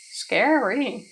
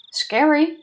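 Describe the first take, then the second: First: A touch of mock fear, mild; lightly scared. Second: High, loud, playful fright; mock scared. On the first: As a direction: say it lightly, half-joking. Milder reaction line. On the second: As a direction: squeal it in fake fear. Mock fear at threat.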